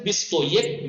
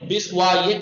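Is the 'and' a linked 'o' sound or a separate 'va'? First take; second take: linked o; separate va. First: The 'and' is an 'o' linked to 'bist'. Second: The 'and' is a separate 'va' syllable. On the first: The speaker calls it right. "पेश बना के पढ़ते हैं" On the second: The speaker calls it wrong. "बीस व एक नहीं पढ़ा"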